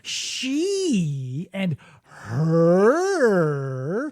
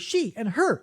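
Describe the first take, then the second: First: It is said in a mocking, contemptuous tone. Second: It is said in a warm, respectful tone. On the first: The speaker means to hurt the person. "if I do not respect you ... I can go she and her" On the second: The speaker means to please the person. "if I respect you, I will say she and her in that tone of voice"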